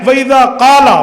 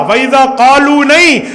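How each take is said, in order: First: क़ाला hit hard with a long first vowel; stress on singular. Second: क़ालू stretched and loud, then a firm नहीं; emphatic long क़ालू, rejected; stress on rejected plural. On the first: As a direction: punch out क़ाला to mark the singular. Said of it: "वाहिद मुज़क्कर गैब की बात है". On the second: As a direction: punch क़ालू and knock it down with नहीं. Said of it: "plural, जमा का सीगा नहीं है". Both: Shown as a demonstration.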